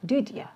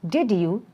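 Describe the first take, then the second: First: The words are joined with a reduced ending. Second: Both words are said fully and separately.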